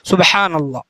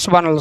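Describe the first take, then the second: First: It is said calmly and clearly. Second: It is said hurriedly and unclearly.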